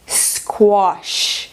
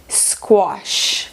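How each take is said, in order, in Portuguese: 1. Sotaque britânico com vogal parecida com O. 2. Sotaque britânico com vogal parecida com O.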